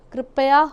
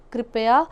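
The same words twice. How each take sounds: First: कृपया said louder with a rising tone as the wrong form; first take of कृपया, the incorrect one; wrong pronunciation. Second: कृपया said clearly as the correct form; second take of कृपया, the corrected one; correct pronunciation. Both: Shown as a demonstration.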